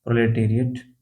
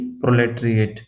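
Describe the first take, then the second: First: प्रोलेटेरिएट with a full "te" before "riat"; corrected reading. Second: प्रोलेटरिएट run together as "pro-let-riate"; misspelt reading. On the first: Teacher fixing his spelling slip for students, corrected reading. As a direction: say प्रोलेटेरिएट as "pro-le-te-riat", every syllable there. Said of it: "T A R I A T होता है". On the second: Teacher reading a misspelt term to students, misspelt reading. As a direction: say प्रोलेटरिएट with the middle syllable squeezed to "tri". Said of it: "spelling थोड़ा सा गलत है". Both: Shown as a demonstration.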